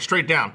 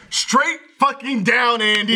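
First: Said in the usual way. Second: Higher, emphatic repeated answer; mock exasperation. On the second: Telling teammate Andy where to jump, exasperated emphatic retort. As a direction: spell it out as if fed up.

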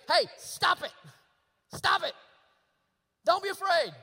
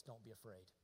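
First: Loud, high, sharp command; stern yelled order. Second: Very soft and low; hushed, low, calming voice; gentle reassurance. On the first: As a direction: yell it as an impatient scolding. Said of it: "two different ways that you can tell them". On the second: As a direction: comfort tenderly, almost under the breath. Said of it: "Unless you do it the second way". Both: Acted.

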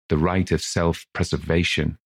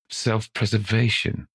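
First: Said in the usual way. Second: Rising, disbelieving echo; incredulous. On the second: Acted. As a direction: repeat it as if absurd. Old man echoes incredulously.

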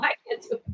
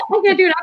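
First: Breathy whisper, high and much softer; whispered refusal. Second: Said in the usual way. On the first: Real, not acted. Declining to show her accent, whispered. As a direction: whisper it, shy of performing on request. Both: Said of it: "I don't know if I can do it now".

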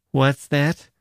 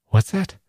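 First: Gusev mimics the sailor's puzzled question; sneering echo of the sailor; mocking mimicry. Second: High puzzled what's that; bewildered rising question; puzzled sailor. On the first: Gusev mocks the sailor, echoing his question scornfully. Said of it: "Gusev mimicked him". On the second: Sailor answers Gusev's scolding, puzzled and high. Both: A narrator's reading.

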